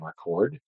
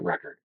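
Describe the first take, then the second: First: The stress is on the second syllable. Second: The stress is on the first syllable. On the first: It is the verb. The speaker calls it right. "they were giving the definition for the verb, which could be record" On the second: It is the noun. The speaker calls it wrong. "not record"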